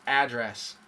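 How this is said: It is said the way most Americans do. "I hear mostly address for where you live"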